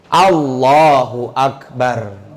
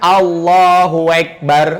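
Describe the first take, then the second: First: The phrase is pronounced clearly and fully. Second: The phrase is pronounced unclearly and slurred. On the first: The speaker calls it right. "harus jelas ucapannya" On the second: The speaker calls it wrong.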